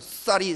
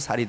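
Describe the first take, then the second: First: The first consonant is a tense s sound. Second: The first consonant is a plain s sound. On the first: The speaker calls it right. "우리 경상도처럼 쌀 발음이 안 됐던 것 같아요" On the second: The speaker calls it wrong. "저는 쌀이 살이 되고"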